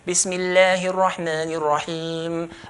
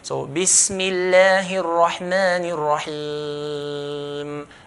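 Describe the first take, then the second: First: It is recited fast with short elongations. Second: It is recited at medium speed, moderate elongations. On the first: "If you're going to do hadar, do two" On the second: "If you're going to do tadbir, we do four"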